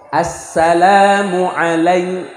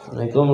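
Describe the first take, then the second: First: The greeting is clear, with a doubled l. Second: The greeting is mumbled and unclear. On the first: The speaker calls it right. "ngomong yang benar. As-sala tasydidnya" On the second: The speaker calls it wrong. "Udah salamnya nggak jelas, gerutu begitu"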